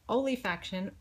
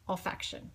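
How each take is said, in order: First: An extra vowel sound follows the 'l'. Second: No extra vowel sound follows the 'l'. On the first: The speaker calls it wrong. "I have been pronouncing it wrong forever because I want to pronounce it olefaction" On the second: The speaker calls it right. "there's no I in it"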